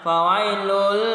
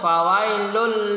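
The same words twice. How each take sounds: First: The sound is stretched out too long. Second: The sound is short, with no nasal hum. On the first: The speaker calls it wrong. "jangan terlalu dibuat uh, manjang, fawailul, salah" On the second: The speaker calls it right. "tanpa mendengung"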